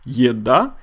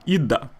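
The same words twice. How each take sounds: First: The first vowel is said fully and clearly. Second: The first vowel is weakened toward a plain e. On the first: This is the formally correct pronunciation. "the correct way of saying food in Russian is" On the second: This is how people say it in everyday speech. "in everyday speech Russians say"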